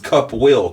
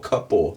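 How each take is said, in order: First: The word 'will' is said in full. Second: The 'will' shrinks into one short syllable. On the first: "from will just to O" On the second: "Now he went couple"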